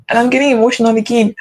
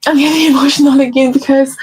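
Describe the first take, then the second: First: Said in the usual way. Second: Higher, laughing through tears; teary laugh. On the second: Real, not acted. Talking to viewers about her faith, a real tearful laugh.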